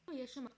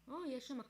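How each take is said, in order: Both takes have the same delivery.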